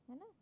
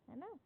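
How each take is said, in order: No difference in how they are said.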